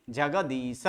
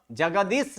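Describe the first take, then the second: First: जगदीश as ja-ga-dee-sa, low and softer; right, final vowel sounded. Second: जगदीश as ja-ga-dis, closed on the sibilant; wrong, vowel dropped. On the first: Teacher giving students the correct reading, full final vowel. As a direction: add a voiced a to the end of जगदीश. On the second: Teacher contrasting wrong reading for students, vowel dropped. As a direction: say जगदीश without any final a. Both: Shown as a demonstration. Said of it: "जगदीश नहीं".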